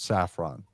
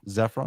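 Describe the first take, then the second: First: The name begins with an S sound. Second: The name begins with a Z sound. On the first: The speaker calls it right. "so it's saffron" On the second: The speaker calls it wrong. "and the Z too in the beginning of his names"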